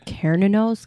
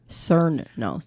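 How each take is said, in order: First: The name begins with a hard K sound. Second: The name begins with a soft S sound. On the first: "I'm pretty certain it's Ka" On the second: "some people c- pronounce the C like s-"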